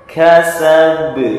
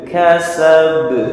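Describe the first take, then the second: First: The final b is released with a bounce. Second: The same.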